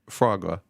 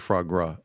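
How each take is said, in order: First: The name has a single r sound. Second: The name has an extra r after the g.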